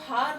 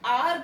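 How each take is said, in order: First: The word starts with an audible h sound. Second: The word starts with a vowel, no h sound. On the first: The speaker calls it wrong. "उसको हार नहीं बोलते" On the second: The speaker calls it right. "इसे हम आर बोलते हैं"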